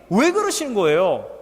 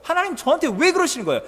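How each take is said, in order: First: Said in the usual way. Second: Pushed up high and rushed, a petulant complaint; the complaint again, higher and hurried; higher, faster whining plea. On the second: Acted. Jonah complaining, repeated louder.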